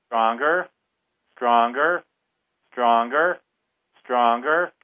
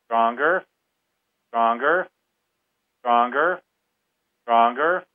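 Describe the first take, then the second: No difference in how they are said.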